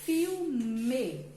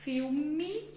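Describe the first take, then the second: First: Filme said as "fiu-me", ending on a clear e; spelled-out filme. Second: Filme said as "fiu-mi", L sounding like U, ending in i; spoken filme. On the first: Teacher showing kids how filme is spelled. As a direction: stress the written e at the end of filme. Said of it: "mas escreve". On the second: Teacher showing kids how filme is spoken. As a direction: say filme the way we speak it. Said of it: "A gente fala". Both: Shown as a demonstration.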